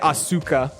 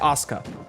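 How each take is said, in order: First: The u after the s is fully pronounced. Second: The u after the s is dropped. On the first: The speaker calls it wrong. "You don't say Asuka" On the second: The speaker calls it right. "you drop the U for her name"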